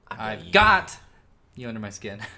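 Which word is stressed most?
got. The strongest stress falls on "got". "You see, you're a got guy"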